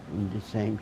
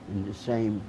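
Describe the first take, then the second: No difference in how they are said.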